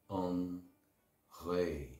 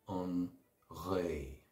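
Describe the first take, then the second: No difference in how they are said.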